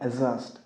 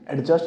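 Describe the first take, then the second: First: The d sound is left silent. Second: The d sound is clearly pronounced. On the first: The speaker calls it right. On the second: The speaker calls it wrong.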